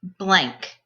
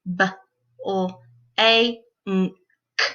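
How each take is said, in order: First: Said in the usual way. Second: BLANK split into five separate sounds; b... l... a... n... k, one sound at a time; sounded out phonemes. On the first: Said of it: "put those sounds into a word". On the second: Shown as a demonstration. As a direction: sound out BLANK with a gap after each sound. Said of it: "say the sounds in the word".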